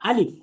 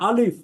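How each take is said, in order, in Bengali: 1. এটি পাতলা করে উচ্চারণ করা হয়, ঠোঁট গোল না করে। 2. এটি মোটা করে উচ্চারণ করা হয়, ঠোঁট গোল করে। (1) "বরং পড়বো আলিফ" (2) "এইভাবে পড়বো না, মুখ গোল করে পড়বো না"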